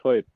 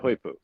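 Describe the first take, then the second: First: "hoipu" split into HOY and a short puh; pronounced version. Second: Said in the usual way. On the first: Shown as a demonstration. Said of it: "but it's pronounced hoipu". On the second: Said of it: "it's spelled hoipu".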